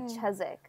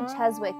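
First: The W sound in the middle is silent. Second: The W sound in the middle is pronounced. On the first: The speaker calls it right. "they don't really pronounce their W's" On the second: The speaker calls it wrong. "they didn't say Cheswick"

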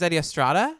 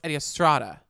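First: The name is said hesitantly, like a question. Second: The name is said firmly, like a certainty. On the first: The speaker seems unsure of the name. The speaker calls it wrong. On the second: The speaker is sure of the name. The speaker calls it right.

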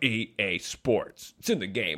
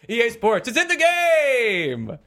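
First: It is said in a lower, announcer-like voice. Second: It is said in a ridiculous high-pitched voice. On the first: "instead of the guy going" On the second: "It's Geoff going, ... Geoff voice!"

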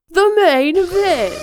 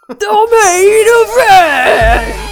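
First: It is said flatly, without passion. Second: It is said with gruff, energetic passion.

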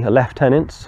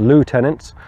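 First: It is said with a non-American pronunciation. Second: It is said with an American pronunciation.

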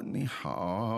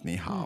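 First: It is said slowly and hesitantly, unsure of the person. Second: It is said as a plain, confident greeting.

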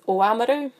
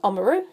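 First: The name has a Māori pronunciation. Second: The name has an anglicized pronunciation. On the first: This is the proper Māori form of the name. The speaker calls it right. "if I'm being correct" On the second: This is how most people around say it. The speaker calls it wrong. "growing up, it was"

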